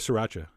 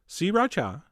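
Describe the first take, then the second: First: Its syllables are run together casually. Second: Its three syllables are sounded distinctly. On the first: "I'm going back to" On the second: "Three distinct syllables"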